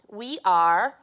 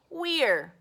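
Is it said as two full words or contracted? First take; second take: full; contracted. First: It is said as two full words. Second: It is contracted into one syllable. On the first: "So we can say we are or we're" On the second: "So we can say we are or we're"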